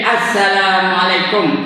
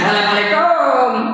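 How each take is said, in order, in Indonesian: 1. Suku kata terakhir 'kum' dibaca pendek. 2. Suku kata terakhir 'kum' dipanjangkan. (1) "Patutnya pendek" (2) "Itu orang Melayu. ... Kom tu banyak menang"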